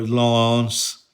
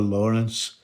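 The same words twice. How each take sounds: First: The name is pronounced the French way. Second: The name is pronounced the English way. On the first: This is the correct native form of the name. "she's a French girl, Lawrence is how you say it" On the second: The speakers were too unsophisticated to say it properly. "we called her Lawrence because we are, you know, unsophisticated Scotsmen"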